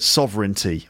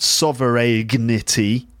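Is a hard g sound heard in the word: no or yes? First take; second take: no; yes. First: The word has no hard g sound. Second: The word has a hard g sound. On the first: The speaker calls it right. "but sovereignty" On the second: The speaker calls it wrong. "not sovereignty"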